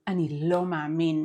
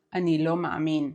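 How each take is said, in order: First: Devastated disbelief, weight on "lo". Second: Said in the usual way. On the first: Shown as a demonstration. Teacher shows reaction to devastating news, devastated. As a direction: say "lo" as if crushed by the news. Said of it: "It is devastated intonation". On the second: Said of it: "It is not".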